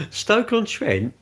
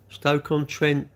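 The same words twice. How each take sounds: First: "Stoke-on-Trent?" slow and much higher, falling at the end; incredulous repeat. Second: Slow, drawn-out reading of "Stoke-on-Trent". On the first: Streamer repeats the viewer's town in disbelief. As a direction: echo "Stoke-on-Trent" back as if you can't believe it. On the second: Streamer slowly reads a viewer's town from chat. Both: Real, not acted.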